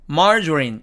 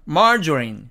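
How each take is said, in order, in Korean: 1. 영어 발음으로 발음됩니다. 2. 영어 발음으로 발음됩니다.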